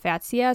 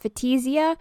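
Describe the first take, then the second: First: The T runs straight into the S. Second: An extra vowel is sounded after the T. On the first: The speaker calls it right. "it's literally pronounced just like it's spelled F-A-T-S-I-A" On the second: The speaker calls it wrong. "I used to pronounce it Fatisia"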